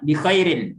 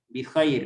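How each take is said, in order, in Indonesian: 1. Akhiran -in di akhir dibaca. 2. Akhiran -in di akhir tidak dibaca.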